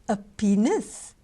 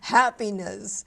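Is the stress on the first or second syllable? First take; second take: second; first. First: The stress falls on the second syllable. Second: The stress falls on the first syllable. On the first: The speaker calls it wrong. "Madame de Gaulle had put the stress on the wrong syllable" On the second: The speaker calls it right. "I think the Americans pronounce that word happiness"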